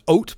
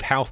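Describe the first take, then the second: First: The H sounds at both ends are dropped. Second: The H sounds at both ends are pronounced. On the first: This is how the locals say it. The speaker calls it right. "nobody pronounces the H on either end" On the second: This is how an outsider assumed it was said. The speaker calls it wrong. "a town I thought was called Howth"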